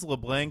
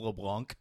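First: The vowel in 'Blanc' is an English A sound. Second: The vowel in 'Blanc' sounds French. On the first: This is how the family used to say it. The speaker calls it wrong. "we thought our name was" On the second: This is how the kids said it after school. The speaker calls it right. "there's no such A sound in French. It's a French last name. So it's LeBlanc"

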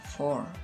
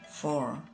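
First: The word is said at normal speed. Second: The word is said more slowly.

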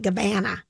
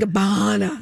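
First: The middle vowel is a flatter 'a' sound. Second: The middle vowel is an open 'ah' sound. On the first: This is a habitual mispronunciation. The speaker calls it wrong. "I call it Gabbana. Like a cabana?" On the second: This is the intended pronunciation of the brand. The speaker calls it right. "it's like ba. ... Like Barcelona"

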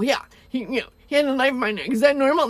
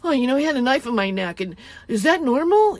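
First: It sounds serious and distressed. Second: It sounds casual, almost comedic.

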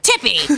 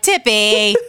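First: It is said in a harsh, scolding tone. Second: It is said in a gentle, nice tone.

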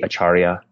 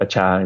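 First: The word is said in its fuller form. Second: The word is said in a shortened form. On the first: This is how it is said outside Cambodia. "the more typical pronunciation outside of Cambodia would be acharya" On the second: This is how it is said in Cambodia. "acha is how it's pronounced"

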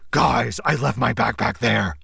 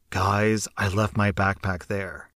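First: It is said in a gruff Batman voice. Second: It is said in the narrator's normal voice.

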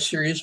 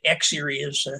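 First: The word begins with a plain 's' sound. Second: The word begins with an 'ex' sound. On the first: The speaker calls it right. "It's Jessica Rabbit, Serious Business" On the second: The speaker calls it wrong. "People are pronouncing it all kinds of ways. I get X-Serious"

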